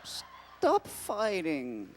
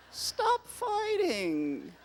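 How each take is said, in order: First: Slow drawn-out stop fighting; slow plea. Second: Much higher, slow pleading cry; high drawn-out plea. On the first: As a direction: plead slowly, dragging it out. Pleading with fighting characters. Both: Acted.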